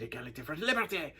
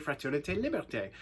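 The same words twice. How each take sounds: First: Lightly voiced French passengers chanting the motto; a hint of French travellers, mildly imitated; grateful French passengers. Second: Said in the usual way. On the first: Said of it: "they said". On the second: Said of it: "the French motto is égalité".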